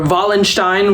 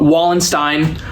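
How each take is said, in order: First: The name is said with German pronunciation. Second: The name is said with American pronunciation.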